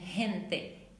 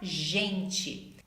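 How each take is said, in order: First: The first sound follows Spanish pronunciation. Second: The first sound follows Portuguese pronunciation. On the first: "como em gente" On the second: "em português fica gente"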